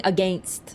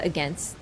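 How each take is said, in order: First: "against" with a long A, like "uh-GAYNST"; long-A pronunciation. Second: Said in the usual way. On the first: Shown as a demonstration. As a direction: say "against" to rhyme with "paint" plus st. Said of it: "were you expecting "against". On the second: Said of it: "What's, what's the "against"?".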